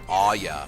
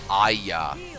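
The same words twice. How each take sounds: First: The first vowel sounds half like an 'oh'. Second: The first vowel sounds like a plain English 'ah'. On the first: This is how the name is said in the game. "they go like Aya. ... they almost say it like it's an O" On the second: This is the ordinary English way to say the name. "I'm saying like Aya. Like like that's an English way to say it"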